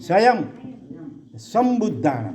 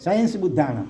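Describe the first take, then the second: First: It starts with 'svayam' followed by 'sam'. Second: It starts with 'sayans' and drops the 'sam' syllable. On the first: The speaker calls it right. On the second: The speaker calls it wrong. "સાયન્સ બુદ્ધાણમ નથી"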